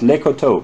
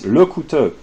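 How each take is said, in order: First: The second syllable has an 'oh' vowel. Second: The second syllable has an 'oo' vowel. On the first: The speaker calls it wrong. "your pronunciation of uh, Lecoteau is is uh, terrible" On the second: The speaker calls it right. "It's Lecouteux"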